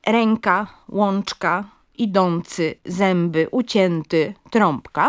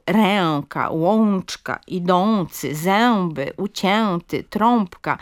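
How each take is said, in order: First: "ręka, łączka, idący, zęby, ucięty, trąbka" as renka, lonczka, idoncy, zemby, ucienty, trompka; two separate sounds. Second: "ręka, łączka, idący, zęby, ucięty, trąbka" with full nasal ę and ą; overliteral nasal vowels. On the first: Linguist shows the model forms, split nasals in "ręka, łączka, idący, zęby, ucięty, trąbka". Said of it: "wymówione jako dwie głoski". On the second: Linguist demonstrates the error, nasal ę and ą in "ręka, łączka, idący, zęby, ucięty, trąbka". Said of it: "Również literowa wymowa e i o". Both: Shown as a demonstration.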